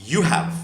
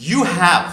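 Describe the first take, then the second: First: "you have" run together as "you've"; short form of "you have". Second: Said in the usual way. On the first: Shown as a demonstration. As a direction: contract "you have" into one beat, you've. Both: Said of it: "ওটা short form".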